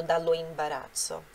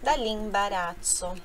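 First: Dallo imbarazzo with the full o of dallo kept, dallo and imbarazzo as two separate words; wrong full form. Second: Dallo imbarazzo run together as dall'imbarazzo, the o of dallo dropped; correct elided form. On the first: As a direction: say dallo imbarazzo without eliding the o. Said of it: "isso daqui é errado". (forma errada: dallo imbarazzo com o o de dallo pronunciado) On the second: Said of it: "Então, fica". (forma certa: dallo imbarazzo dito dall'imbarazzo, sem o o) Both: Shown as a demonstration.

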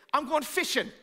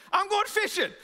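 First: Said in the usual way. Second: High, loud, bright announcement; a worker after a bad day, announcing it loudly; cheerful escape. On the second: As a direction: go fishing like it's a relief. Bad day at work, going fishing.

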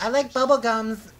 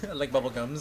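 First: Slow, higher-pitched goofy delivery; silly drawn-out line. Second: Said in the usual way. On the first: Pretend. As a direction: draw it out, pitched up, for a laugh. Says a silly line, then repeats it.

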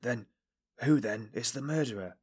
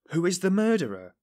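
First: Halting question, short of breath; breathless question. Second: High, loud, incredulous echo. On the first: Suspect asks investigator who the murderer is, breathless. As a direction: ask haltingly, unable to hold back. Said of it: "he asked in a breathless voice". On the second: Investigator amazed at the suspect's question, incredulous. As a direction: repeat it as if you can't believe your ears. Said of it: "as though unable to believe his ears". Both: A narrator's reading.

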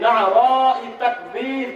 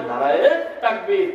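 First: "নারাই" drawn out with an Arabic ayn; grammatical Arabic pronunciation. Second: "নারায়ে" run together into a long final -e; mistaken popular pronunciation. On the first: Preacher models the grammatical slogan, "নারাই" stretched Arabic-style. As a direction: say "নারাই তাকবীর" slowly, each syllable of na'ara-i distinct. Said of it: "grammar দিয়ে সুন্দর করে বলবি". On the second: Preacher mimics what people say, "নারায়ে" with stretched -e ending. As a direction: say "নারায়ে তাকবীর" the popular way, no ayn. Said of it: "তাকে বলে না, খালি বলে". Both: Shown as a demonstration.

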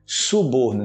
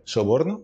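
First: Suborno with a u; correct suborno. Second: Soborno with an o; wrong soborno. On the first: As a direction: say suborno with a clear u. (suborno com u) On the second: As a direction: soborno with a Spanish o. (soborno com o) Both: Shown as a demonstration. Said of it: "não soborno".

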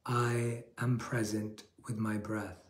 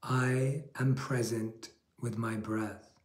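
First: Slow, a touch softer mantra; slow affirmation. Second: Slow, calm affirmation for listeners to repeat. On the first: Monk repeating the affirmation for listeners, slow and soft. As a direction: let it settle, slow and calm. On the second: Monk leading a repeat-after-me affirmation, slow and calm. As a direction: say it slowly, like a mantra. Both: Shown as a demonstration. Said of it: "Repeat after me".

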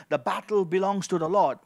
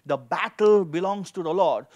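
No difference in how they are said.

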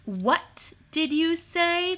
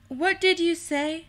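First: Slow, high, drawn-out question; deliberate repeat. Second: Raised pitch, questioning lift at the end; sharp query. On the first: Timmins repeats his question in the silence, slow and deliberate. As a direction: stretch each word out, pitched up. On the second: Timmins catches Carmen's remark, high startled query. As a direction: ask it high, at a normal speed. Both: A narrator's reading.

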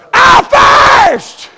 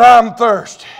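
First: Very high, drawn-out preaching cry; shouted quote. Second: Said in the usual way. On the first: Retold or imitated. Preacher repeats Jesus's words from the cross, shouted quote. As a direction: belt out the two words, stretched long.

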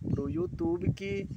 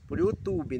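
First: YouTube stretched out slowly and pitched much higher; stress on YouTube. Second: Said in the usual way. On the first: Shown as a demonstration. Correcting herself to viewers, YouTube said slow and high. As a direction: lean hard on YouTube as the correction. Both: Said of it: "Não é Facebook".

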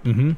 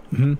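No difference in how they are said.

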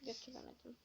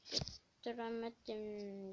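First: Quiet defeated murmur; very quiet repeat. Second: Götüremedim stretched slowly, syllable by syllable; slow, sulky drawn-out Götüremedim. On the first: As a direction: mutter the word to yourself, barely audible. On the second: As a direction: drag out Götüremedim in frustration. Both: Shown as a demonstration.

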